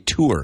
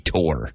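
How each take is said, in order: First: It is said with a Midwest accent. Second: It is said with a Pennsylvania accent.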